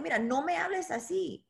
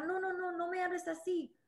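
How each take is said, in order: First: Firm, self-assured refusal; confident. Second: Meek, soft and higher, a timid plea; mock a fragile little protest; too delicate. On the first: Retold or imitated. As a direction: set the boundary calmly but firmly. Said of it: "y tener la confianza". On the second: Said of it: "Muy delicada".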